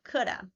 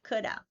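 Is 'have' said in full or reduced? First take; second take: reduced; reduced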